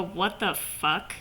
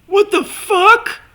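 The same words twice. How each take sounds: First: Low, soft, slow "What the fuck?"; deadpan low version. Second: High, louder, slow "What the fuck?" rising; shocked high version. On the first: Fan demoing a calmer reaction, low soft slow deadpan. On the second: Fan demoing the bigger reaction, high loud shocked. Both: Shown as a demonstration. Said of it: "changed their facial expressions to".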